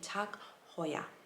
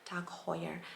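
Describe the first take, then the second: First: Heuer is said with German pronunciation. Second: Heuer is said with English pronunciation. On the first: The speaker calls it right. "the correct way would be Tag Heuer" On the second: The speaker calls it wrong. "so like an English kind of way"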